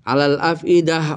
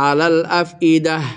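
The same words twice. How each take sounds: No difference in how they are said.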